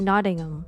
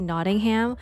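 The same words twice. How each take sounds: First: The final 'ham' is reduced and barely pronounced. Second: The final 'ham' is pronounced fully and clearly. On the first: This is how locals say it. The speaker calls it right. "they don't say the the ham part. They just say Nottingham" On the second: This is how an American would say it. The speaker calls it wrong. "I almost wanted to say Nottingham, like a freaking American"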